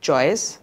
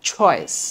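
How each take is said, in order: First: The first consonant has no puff of air. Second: The first consonant has a puff of air. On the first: The speaker calls it wrong. "Not চয়েস" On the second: The speaker calls it right. "উচ্চারণটা দেখো"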